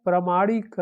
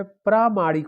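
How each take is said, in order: First: प्रामाणिक said as "ramanik", with the opening "pr" dropped and a short "a"; wrong form sounded out. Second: प्रामाणिक said fully as "pramanik", with a clear "pr" and a long "a"; correct form sounded out. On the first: Teacher shows students the wrong form of प्रामाणिक. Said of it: "तो नहीं होता है". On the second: Teacher gives exam students the correct form of प्रामाणिक. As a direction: say प्रामाणिक with its full "pr" opening. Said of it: "प्रामाणिक होता है". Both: Shown as a demonstration.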